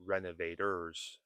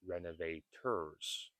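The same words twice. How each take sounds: First: RENOVATORS as reno-vay-ders; relaxed American T in RENOVATORS; soft flapped T. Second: RENOVATORS as reno-vay-TURS with a true T; careful RENOVATORS with an aspirated T; hard T. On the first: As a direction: tap the T lightly like a D in RENOVATORS. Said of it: "notice I said renovators and not". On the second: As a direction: sound out the T crisply in RENOVATORS. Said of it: "and not renovators". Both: Shown as a demonstration.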